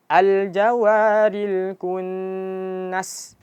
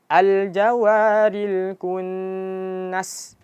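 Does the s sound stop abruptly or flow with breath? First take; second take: flowing; flowing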